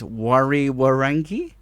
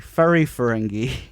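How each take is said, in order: First: The word begins with a W sound. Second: The word begins with an F sound. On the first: The speaker calls it wrong. "when you see the words, you think it's" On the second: The speaker calls it right. "but it's actually"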